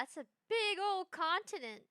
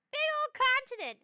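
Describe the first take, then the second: First: Said in the usual way. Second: High, loud exclamation; emphatic repeat. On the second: Real, not acted. Streamer repeating for effect to viewers, loud emphatic repeat.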